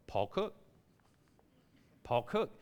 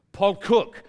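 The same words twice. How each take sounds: First: Soft, low, hopeful interjection; understated nudge to the clerk; meek prompting. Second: Loud, higher, exasperated name call; mock French clerk giving in loudly; fed-up call. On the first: Retold or imitated. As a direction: quietly slip the name in. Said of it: "fed up with me going". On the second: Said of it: "she gets fed up with me".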